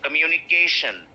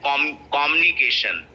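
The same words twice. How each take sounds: First: COMMUNICATION as kuh-myu-ni-KAY-shun; stress on KAY. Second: COMMUNICATION begun with a full, stressed KOM; common mispronunciation. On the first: Shown as a demonstration. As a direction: hit KAY in COMMUNICATION after a light kuh. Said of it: "K is getting stressed". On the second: Retold or imitated. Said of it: "these are all wrong pronunciation".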